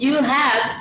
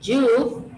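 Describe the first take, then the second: First: The two words are said fully and separately. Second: The two words are joined into one syllable. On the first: "without contraction" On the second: "this is a contraction for you have"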